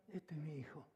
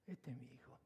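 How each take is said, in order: First: Said in the usual way. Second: Unvoiced, breathy whisper, much softer and lower. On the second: Shown as a demonstration. Pastor repeating the father's pride to the congregation in a whisper. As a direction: let the father's words fall to a hush.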